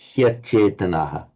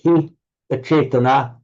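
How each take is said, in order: First: The words merge with a y sound between them. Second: The two words are kept separate, no y sound. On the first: "with sandhi" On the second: "if you were separating it out, separating out the sandhi"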